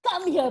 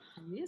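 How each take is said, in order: First: It is said loudly in a higher voice. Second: It is said softly in a lower voice. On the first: The speaker calls it wrong. "You don't say" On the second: The speaker calls it right. "Your voice lowers its volume"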